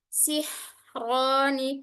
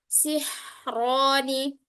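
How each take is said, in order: No difference in how they are said.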